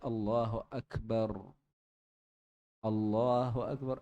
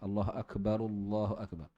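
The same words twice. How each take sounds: First: There is a pause between the two phrases. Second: The two phrases run together without a pause. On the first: "ada jedanya"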